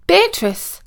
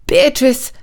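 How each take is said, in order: First: High-pitched searching call. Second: Gentle call, a little high; soft call. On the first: Prince searching the gardens for Beatrice, calling out high. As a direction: call her name out high, falling away. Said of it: "he was calling out". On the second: Prince at the pond coaxing Beatrice, calling softly. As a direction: coax her out by name. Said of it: "called out softly". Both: A narrator's reading.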